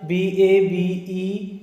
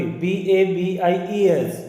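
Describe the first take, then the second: First: Slow letter-by-letter spelling slip; wrong spelling, then corrected. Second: Slow corrected spelling B A B I E S. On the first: Teacher spells a word to students, slowly and wrongly. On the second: Teacher corrects her spelling for students, slowly. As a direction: spell it again slowly, now right. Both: Real, not acted. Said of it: "sorry".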